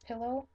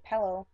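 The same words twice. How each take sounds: First: Pillow with an ih, "PILL-oh"; short i in pillow; standard pronunciation. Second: Pillow as "PELL-oh"; local pronunciation. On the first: Puzzling over a word, standard pillow. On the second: Conceding how locals say it, pillow as "pellow". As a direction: open pillow's first vowel to eh. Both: Shown as a demonstration. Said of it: "We'll say pillow".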